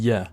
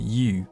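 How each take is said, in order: First: The vowel is reduced to a schwa. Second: The vowel is a full 'oo' sound.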